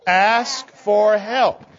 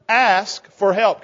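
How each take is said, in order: First: Put-on very slow, drawn out for kids to echo; slow call to repeat. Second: Said in the usual way. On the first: Shown as a demonstration. Leader has the children repeat it, very slow and drawn out. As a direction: stretch each word so the children can say it along. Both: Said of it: "Can you say that with me?".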